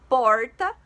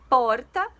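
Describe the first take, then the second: The two takes are said the same way.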